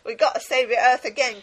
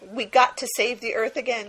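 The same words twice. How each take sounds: First: It is said in a Cockney accent. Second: It is said without a Cockney accent.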